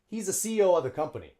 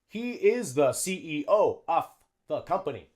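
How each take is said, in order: First: 'He is' is contracted and 'of' reduced. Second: 'He is' is said in full. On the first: "a native English speaker would say" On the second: "That's good English"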